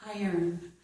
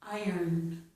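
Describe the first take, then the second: The two takes are said the same way.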